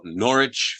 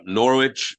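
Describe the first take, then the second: First: Norwich said slowly as norr-itch with no w; careful slow Norwich, norr-itch, the w dropped; Norwich said right. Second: Norwich said as written, nor-witch, with a clear w and witch; Norwich said wrong. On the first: Corrects himself to the local Norwich, norr-itch. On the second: First tries Norwich as written, nor-witch. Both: Shown as a demonstration. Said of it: "No-, Norwich".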